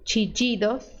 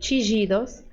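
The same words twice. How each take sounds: First: The ll is said like an English j. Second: The ll is said like a soft zh sound. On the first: "som de D J" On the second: "som de J"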